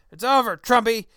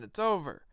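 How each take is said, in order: First: Much louder, higher gloating shout of over, Trumpy; mock Plinkett yell. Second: Mock Plinkett. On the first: Host as gloating Plinkett yelling at a Trump supporter, loud mock shout. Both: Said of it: "attempt at a Mister Plinkett voice".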